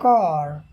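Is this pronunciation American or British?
American. The word ends with an r sound. "लेकिन यहाँ"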